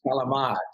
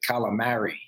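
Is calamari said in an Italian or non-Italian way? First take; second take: Italian; non-Italian. First: It is said the Italian way. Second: It is said in a non-Italian American way.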